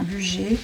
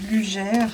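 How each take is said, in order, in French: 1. Le nom se prononce à la française. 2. Le nom se prononce à la française.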